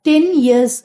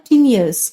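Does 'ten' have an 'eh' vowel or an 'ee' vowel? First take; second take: eh; ee. First: Ten has a clear short 'eh' vowel. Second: Ten's vowel shifts toward an 'ee' sound. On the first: "டென் years அப்படின்னு நம்ம சொல்லாம" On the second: "இந்த ஏ sound வந்து ஈயா மாறிடுது"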